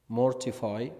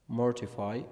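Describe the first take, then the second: No difference in how they are said.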